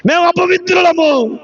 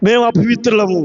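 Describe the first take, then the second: First: Lifted, called-out admission; raised retold confession. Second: Low-pitched, subdued admission; low retold confession. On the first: Preacher repeats the spirits' confession, lifted into a call. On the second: Preacher voices spirits confessing uncleanness, low and restrained. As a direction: say it low and contained.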